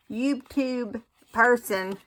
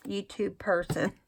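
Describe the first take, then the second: First: YouTube person laughed out slowly; laughing. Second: Said in the usual way. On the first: Real, not acted. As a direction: chuckle through YouTube person.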